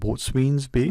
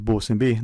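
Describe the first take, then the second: First: The first word is said as 'boat-swain's'. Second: The first word is said as short 'bosun'. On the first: The speaker calls it wrong. "not Boatswain's Bay" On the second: The speaker calls it right. "It was Bosun Bay"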